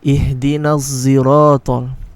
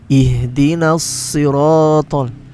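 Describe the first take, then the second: First: Siratal starts with a z-like sound. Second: Siratal starts with a heavy, emphatic s. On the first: The speaker calls it wrong. "with a dha" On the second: The speaker calls it right. "We should read it with a sod"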